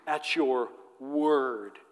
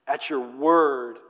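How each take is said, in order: First: At your word slow, WORD drawn out; stress on word. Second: At your word slowed, word lengthened; weight on word. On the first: Shown as a demonstration. Preacher stressing Peter's answer, word drawn out. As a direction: lean on word, slowly. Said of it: "The emphasis is on his word". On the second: Acted. Peter answering Jesus, stress on word. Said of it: "And so Peter says".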